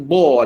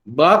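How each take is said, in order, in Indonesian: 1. Suku kata ini diucapkan dengan vokal yang tebal dan membulat. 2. Suku kata ini diucapkan dengan vokal yang tipis dan ringan.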